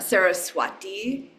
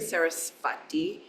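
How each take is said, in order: First: The middle consonant is a W sound. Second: The middle consonant is a V sound. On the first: "it'll often be pronounced as, as a W sound" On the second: "you could say"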